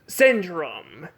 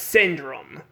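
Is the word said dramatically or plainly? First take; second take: dramatically; plainly. First: The word is said in a dramatic, heightened way. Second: The word is said in a plain, flat way. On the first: The speaker calls it right. "I meant to say it like this" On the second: The speaker calls it wrong. "the way I said it"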